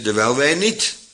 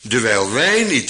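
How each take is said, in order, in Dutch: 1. Het woord niet heeft de hoofdklemtoon. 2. Het woord wij heeft de hoofdklemtoon. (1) "of eventueel niet" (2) "de klemtoon in vers 18 gewoon ook op wij kunt leggen"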